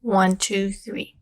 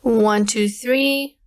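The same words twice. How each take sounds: First: Light background hiss remains, the voice sounds natural. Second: No hiss, and the voice sounds clean and undistorted. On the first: "the hissing sound is a lot less now" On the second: "mid is the best one for this case"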